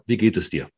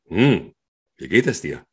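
First: The question is asked plainly, without a sound first. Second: A breathy hum sound comes before the question.

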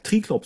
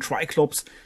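First: The name is pronounced with German sounds. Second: The name is pronounced with English sounds. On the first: This is how the speaker is used to saying it. "ich bin da tatsächlich auch geprägt, viele Namen deutsch auszusprechen" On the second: This is how many colleagues say it. "Viele meiner Kollegen, die sagen Triclops"

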